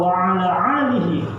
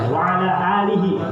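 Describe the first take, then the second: First: 'Alihi' begins with a throaty ain sound. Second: 'Alihi' begins with a plain glottal stop. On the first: It means and upon upon it. The speaker calls it wrong. "jadi ain semua loh" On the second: It means and upon his family. The speaker calls it right. "Habis ain baru ham"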